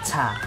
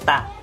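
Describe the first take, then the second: First: The t is said with a puff of air. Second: The t is said without a puff of air. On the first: The speaker calls it wrong. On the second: The speaker calls it right.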